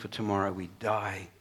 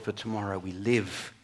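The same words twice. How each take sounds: First: Die leaned on with a falling close, quietly; stress on die. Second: Live leaned on with a falling close, quietly; stress on live. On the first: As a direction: let die land heavy and final. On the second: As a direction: swap in live and let it land. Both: Shown as a demonstration.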